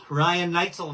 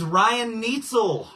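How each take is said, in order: First: "Neitzel" with a long i, NITE-zel; "Neitzel" rhyming its first syllable with "night"; surname as NITE-zel. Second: "Neitzel" with an ee, NEET-zel; "Neitzel" rhyming its first syllable with "neat"; surname as NEET-zel. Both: Shown as a demonstration. Tries two pronunciations of a surname.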